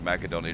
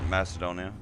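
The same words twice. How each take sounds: First: The consonant after 'Ma' is a K sound. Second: The consonant after 'Ma' is an S sound. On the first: This follows the original Greek form. "There is no C. So it's actually" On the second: This is the usual everyday pronunciation. "as us normal people pronounce it"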